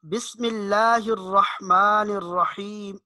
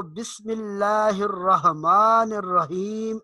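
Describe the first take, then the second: First: Slow recitation, الرحمن الرحیم with ha from mid-throat; correct deep ha. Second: Slow recitation, الرحمن الرحیم with a plain English-like h; wrong soft ha. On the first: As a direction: recite slowly, a sharp pharyngeal ح in الرحمن الرحیم. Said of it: "ہا کو اس کے مخرج سے نکالنا، یہ درست ہے". (الرحمن الرحیم میں حلق سے صاف حا) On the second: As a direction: say الرحمن الرحیم with a light ہ, not pharyngeal. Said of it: "ہا کی آواز نہیں آنی چاہیے". (الرحمن الرحیم میں حا کی جگہ ہلکی ہا) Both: Shown as a demonstration.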